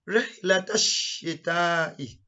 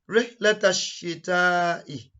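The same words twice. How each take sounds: No difference in how they are said.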